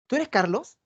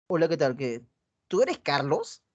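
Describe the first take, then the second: First: Pregunta "¿Tú eres Carlos?" con subida curiosa al final; interesada. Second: Low, flat "¿tú eres Carlos?" with no interest; uninterested. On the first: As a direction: una chica que se alegra de verlo. (chica interesada, pregunta con entusiasmo) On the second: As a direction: asks as if she couldn't care less. (chica desinteresada, pregunta con desgano) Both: Shown as a demonstration. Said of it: "Un mismo mensaje dicho de diferente manera".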